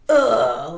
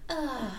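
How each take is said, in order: First: It is a deep, guttural, manly grunt. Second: It is a soft, feminine, dreamlike sigh.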